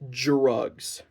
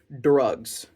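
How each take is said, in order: First: It begins with a 'j'-like sound. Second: It begins with a plain 'dr' sound. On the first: The speaker calls it wrong. "and not drugs" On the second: The speaker calls it right. "it's supposed to be drugs"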